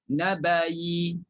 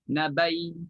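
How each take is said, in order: First: It ends in a y with a faint vowel. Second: It ends in a short y with no vowel. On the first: "bunyikan yi itu, ha, iaitu dengan kadar raum satu per tiga harakah" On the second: "convert jadi ya dan matikan ya"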